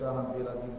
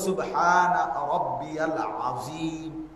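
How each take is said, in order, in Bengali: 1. বাক্যটি তাড়াহুড়ো করে বলা হয়েছে, ধ্বনিগুলো জড়িয়ে গেছে। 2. বাক্যের প্রতিটি ধ্বনি সাবধানে উচ্চারণ করা হয়েছে। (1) "কি বললেন? এটা তো কিচ্ছু হয়েছে না" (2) "শব্দ তো হলো"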